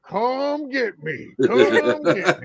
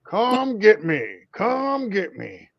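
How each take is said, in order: First: Higher, very slow, sing-song taunt, laughing at the end; drawn-out teasing come get me, much slower; mocking taunt. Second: Teasing taunt, the second drawn out slow; playful come-and-get-me challenge. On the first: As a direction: imitate a kid gloating in a game. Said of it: "He's like". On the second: Acted. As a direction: dare them all to come at you. His taunting catchphrase.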